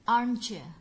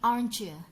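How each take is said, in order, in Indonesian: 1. Bunyi t dan y digabung menjadi bunyi ch. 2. Bunyi t dan y digabung menjadi bunyi ch.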